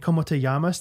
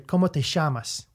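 First: The double L sounds like a Y. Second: The double L sounds like SH, Argentine style.

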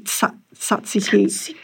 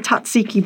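First: The word begins with a ts sound. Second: The word begins with a plain z sound. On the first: The speaker calls it right. "it is actually tzatziki. But it's got that little S after the T" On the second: The speaker calls it wrong. "I would say tzatziki"

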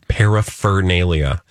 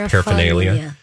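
First: The 'fur' syllable is clearly pronounced. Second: The 'fur' syllable is dropped. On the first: The speaker calls it right. "you got to get the fur in there" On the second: The speaker calls it wrong. "most people don't say the fur. It's just paraphernalia"

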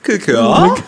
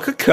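First: It sounds like a question, rising. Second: It sounds like a statement, falling.

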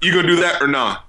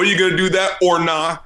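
First: The word 'or' is reduced to an unstressed 'er'. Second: The word 'or' is said as a full 'or'. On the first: "you have to do it with the sort of unstressed syllable er" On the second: "you can either do it with the or"

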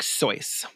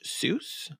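First: The name is said with its original German pronunciation. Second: The name is said with an anglicized pronunciation. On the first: This is the original family pronunciation. "but it's more like Seuss" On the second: This is the common anglicized form. "regularly pronounced Seuss, which is an anglicized version"

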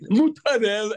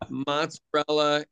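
First: It is clipped, with a 'd' sound in the middle. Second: It is said fully, with a 'ts' sound in the middle.

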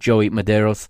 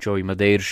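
First: The name is said with English pronunciation. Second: The name is said with Portuguese pronunciation.

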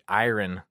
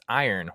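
First: The word is carefully enunciated, every sound distinct. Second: The word is said in a relaxed, reduced way. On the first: The speaker calls it wrong. "specifically tried to enunciate iron, and that is not how it's pronounced" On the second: The speaker calls it right. "it's pronounced iron"

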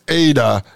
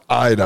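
First: The name begins with an 'ah' sound. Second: The name begins with an 'eye' sound. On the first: The speaker calls it right. "It's Ada" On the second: The speaker calls it wrong. "not Ida"

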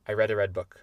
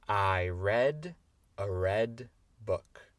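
First: The sentence is said at a very fast speed. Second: The sentence is said at a moderate speed. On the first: "Et encore plus vite" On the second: "on va essayer la phrase entière"

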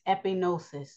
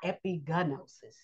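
First: The g sound is silent before the n. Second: The g sound is pronounced before the n. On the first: The speaker calls it right. "It's epinosis" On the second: The speaker calls it wrong. "So epinosis is not epigenosis"

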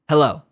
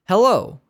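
First: The word is said quickly and briefly. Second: The word is drawn out very slowly. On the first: A normal person answering the phone. The speaker calls it right. "That's how fast we say hello" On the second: An automated phone system is wasting the caller's time. The speaker calls it wrong. "too slow of a hello"

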